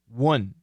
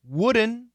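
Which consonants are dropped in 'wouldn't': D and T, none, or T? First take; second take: D and T; T. First: Both the D and the T are dropped. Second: The T is dropped after the N. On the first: "And wouldn't is also quite common" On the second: "Wouldn't is very common"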